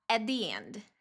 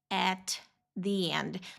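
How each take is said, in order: First: It is said quickly, words run together. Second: It is said slowly, each word distinct.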